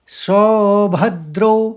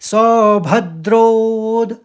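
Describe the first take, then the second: First: The word ends without an extra d sound. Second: The word ends with an extra d sound. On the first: The speaker calls it wrong. "एक साथ ही पढ़ देंगे तो एकदम सुनाई नहीं देता" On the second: The speaker calls it right. "लेकिन आता है आघात। देखिए"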